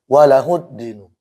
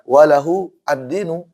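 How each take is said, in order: First: The words are linked smoothly into one sound. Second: The words are said separately, with the glottal stop. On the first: "kalau disambung" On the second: "aslinya kalau dipisah"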